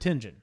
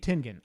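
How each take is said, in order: First: The middle consonant is a soft J sound. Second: The middle consonant is a hard G sound. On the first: This is how the speaker has always said it. "I've always pronounced it Tenjin" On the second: This may be the correct name. "but it may be Tengen"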